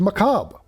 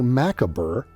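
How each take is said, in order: First: The final letters are not fully sounded. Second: Every letter of the word is sounded out. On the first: The speaker calls it right. "for the word macabre" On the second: The speaker calls it wrong. "we do not say macabre"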